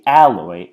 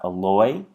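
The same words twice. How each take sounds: First: The stress is on the first syllable. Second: The stress is on the second syllable. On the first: The speaker calls it right. "we say alloy ... because the stress is on the A" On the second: The speaker calls it wrong. "and not alloy"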